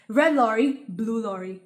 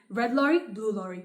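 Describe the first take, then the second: First: The phrase is said at a medium pace. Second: The phrase is said at a fast pace. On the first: "Speed two" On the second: "Speed three"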